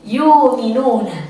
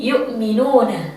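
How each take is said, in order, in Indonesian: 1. 'Yu' dipanjangkan menjadi vokal panjang sebagai gantinya. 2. Hamzah diucapkan setelah 'yu'. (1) "biibdal waw" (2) "dengan bitahqiq"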